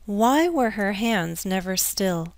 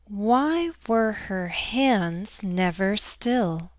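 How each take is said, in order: First: The sentence is read at a natural pace. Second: The sentence is read at a slow pace. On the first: "Let's read faster Let's read at a natural pace" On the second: "read together slowly"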